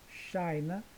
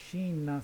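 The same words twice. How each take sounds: First: It is pronounced the English way. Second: It is pronounced the Portuguese way. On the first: The speaker calls it right. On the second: The speaker calls it wrong.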